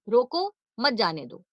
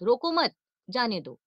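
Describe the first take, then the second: First: The pause comes right after 'roko'. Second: The pause comes right after 'mat'. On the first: Stop him; do not let him go. "हम रोको के बाद बलाघात था" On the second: Do not stop him; let him go. "अब मत के बाद"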